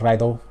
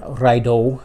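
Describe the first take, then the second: First: The middle consonant is a soft th-like sound. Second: The middle consonant is a hard d sound. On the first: "like a D T H, kind of a Raido" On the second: "Raido with a hard D H sound"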